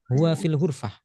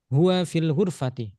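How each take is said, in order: First: The last word ends without a final vowel. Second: The last word ends with a short i vowel. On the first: This is the everyday pausal reading. "dalam sehari-hari dibaca sukun ya, dibaca wakaf" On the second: This is the full case-ending reading. "dibaca kasroh. Maka kita baca kasroh tadi"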